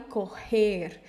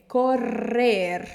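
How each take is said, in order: First: Correr with a Portuguese throaty rr, like coher; wrong throaty r. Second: Correr with a strong rolled double r; trilled rr. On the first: Teacher warning learners off the Portuguese r. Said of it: "não fale correr". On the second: Teacher modelling the right correr for learners. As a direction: roll the rr in Correr. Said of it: "o doble R". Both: Shown as a demonstration.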